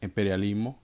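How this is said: It is said imitating a Cuban-style pronunciation. "She said it like that"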